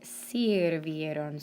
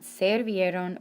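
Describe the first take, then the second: First: The first vowel is an i sound. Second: The first vowel is an e sound. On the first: The speaker calls it right. "but sirvieron" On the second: The speaker calls it wrong. "it's not servieron"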